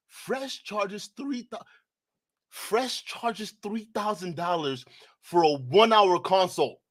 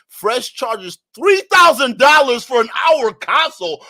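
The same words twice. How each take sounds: First: Slow, deliberate, spelling out each word; stunned slow reread; slow disbelieving reread. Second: Louder, higher disbelieving shout; shocked shout of the price; outraged shout. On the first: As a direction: reread it slowly as if it can't be true. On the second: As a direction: blurt it out in shock. Reading shocking price aloud. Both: Real, not acted.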